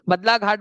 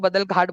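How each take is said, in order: First: The first word ends in an 'a' vowel: Badla. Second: The first word ends in a consonant: Badal. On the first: "बदला घाट बोलो" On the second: "बदल घाट बोलो"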